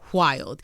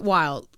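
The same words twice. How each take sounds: First: The word begins with a breathy hw sound. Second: The word begins with a plain w sound. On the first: "Wild with an H. W H I L D" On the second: "Not wild"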